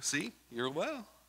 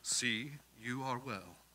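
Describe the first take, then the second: First: It is said in a casual, playful tone. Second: It is said in a solemn, reverent tone.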